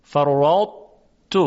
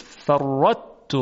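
First: فرطت slow, ط heaviness kept before the t; correct partial merger. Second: فرطت with the ط fully merged into ت, long doubled t, slow; wrong full assimilation demo; wrong full merger. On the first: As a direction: recite فرطت keeping the thick ط colour. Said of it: "باید ادغام ناقص باشه". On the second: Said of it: "حالا که این غلطه". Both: Shown as a demonstration.

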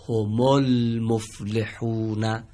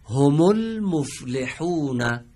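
First: هم المفلحون read very slowly as homolmoflehun, the alef of ال not voiced; correct linked reading. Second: هم المفلحون drawn out slowly, recited with هم linked to المفلحون; slow recitation of هم المفلحون as a Quran teacher would; Quranic phrase read out. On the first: Teacher showing pupils how to join هم المفلحون. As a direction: chant هم المفلحون slowly with the م joined straight to ل. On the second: Teacher reciting هم المفلحون slowly for the pupils to copy. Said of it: "بریم عبارت دوم". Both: Shown as a demonstration.

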